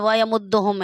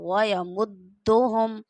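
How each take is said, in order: First: It is said fast, rushing over the doubled sound. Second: It is said slowly, holding the doubled sound. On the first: The speaker calls it wrong. "जल्दी से ... ऐसे नहीं कर जाना" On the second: The speaker calls it right. "इसको आराम से पढ़ना है"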